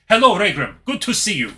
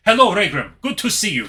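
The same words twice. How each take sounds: First: It is said with a Dracula-like accent. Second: The same.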